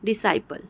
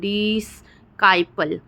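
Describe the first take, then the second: First: One single s sound joins the two syllables. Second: A k sound follows the s. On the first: The speaker calls it right. "सी का उच्चारण नहीं हो रहा है, सिर्फ़ एस का हो रहा है" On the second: The speaker calls it wrong. "हम ऐसा नहीं बोल रहे हैं"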